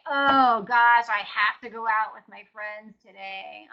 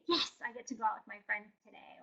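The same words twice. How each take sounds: First: Loud groaning "Oh gosh", burdened "have"; hammed-up dread over a fun plan; mock reluctant. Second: Soft glad "Yes, I get to"; pleased and willing; happy agreement. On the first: Joke about dreading a night out with friends, mock reluctant. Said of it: "most people don't say". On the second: Retold or imitated. Gladly agreeing to go out with friends, soft and happy. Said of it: "you say".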